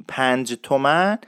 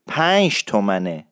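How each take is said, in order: First: Said in the usual way. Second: پنج said as "pansh" before تومنه; "pansh tomane" for پنج تومنه; Isfahani pronunciation. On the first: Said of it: "نیست در اصفهانی". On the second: Shown as a demonstration. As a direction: close پنج on a hushing sh. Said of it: "پنج تومن نیست در اصفهانی".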